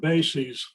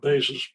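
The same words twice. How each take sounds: First: It is said as the plural of basis. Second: It is said as the plural of base. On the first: The speaker calls it right. "we pronounce this word bases ... Bases being the plural of basis" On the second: The speaker calls it wrong. "not bases"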